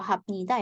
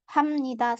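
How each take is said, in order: First: A p sound comes before nida. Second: An m sound comes before nida. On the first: The speaker calls it wrong. "bukan dibaca ... atau hapnida" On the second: The speaker calls it right. "tapi hamnida"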